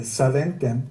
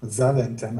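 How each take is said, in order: First: Zaventem begun with an S sound; unsure pronunciation. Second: Zaventem begun with a buzzed Z; second pronunciation attempt. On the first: Guest attempting an airport's name, "Zaventem" starting with S. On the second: Guest retrying an airport's name, "Zaventem" starting with Z. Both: Real, not acted. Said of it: "I'm not sure how you pronounce it".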